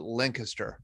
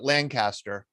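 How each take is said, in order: First: The name is pronounced the way locals say it. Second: The name is pronounced the way outsiders say it. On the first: This is how people who live there say it. "in Lancaster, they call it Lancaster" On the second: This is how people from elsewhere say it. "The rest of the world calls it Lancaster"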